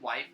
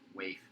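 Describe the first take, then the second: First: The word rhymes with life. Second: The word rhymes with safe. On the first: The speaker calls it wrong. "If I'm mispronouncing that" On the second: The speaker calls it right. "it's pronounced waif"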